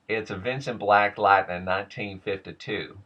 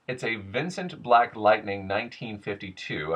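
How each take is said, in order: First: It is said in a regional accent, nasally resonant. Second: It is said in a general American accent. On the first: "Goes into, for me" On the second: "I just did that with a general American accent"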